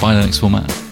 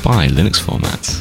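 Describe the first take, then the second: First: It is said in an ordinary speaking voice. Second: It is said in a low, sultry put-on voice.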